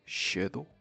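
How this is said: The word is said in a British accent. "In U K"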